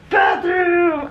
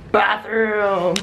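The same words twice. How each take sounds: First: High delighted cry; excited shout. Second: Said in the usual way. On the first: Real, not acted. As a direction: shout it out with joy.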